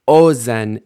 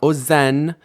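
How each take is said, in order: First: The stress is on the first syllable. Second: The stress is on the last syllable. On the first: The speaker calls it right. "initial stress" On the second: The speaker calls it wrong. "not ozen"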